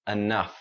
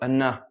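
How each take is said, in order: First: The final sound is held clearly and strongly. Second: The final sound fades away and is barely heard. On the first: The speaker calls it right. "stay strong" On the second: The speaker calls it wrong. "don't die out"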